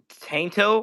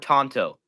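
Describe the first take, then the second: First: The first vowel sounds like the one in 'cat'. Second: The first vowel sounds like the one in 'hot'. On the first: This is the speaker's own pronunciation. The speaker calls it right. "'Cause I pronounce it Tainto" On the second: This is how many other people say it. The speaker calls it wrong. "a lot of people pronounce it Tonto"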